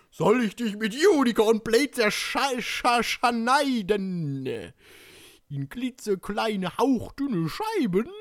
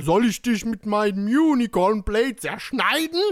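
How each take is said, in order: First: High, drawn-out, stuttered threat; hammed-up reading. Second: Loud threat climbing in pitch; straight threatening take. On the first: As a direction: stretch the syllables out theatrically. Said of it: "Annäherungsversuche lassen wir jetzt mal". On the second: Acted. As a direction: say it straight through, rising to a shout. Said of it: "lassen wir jetzt mal".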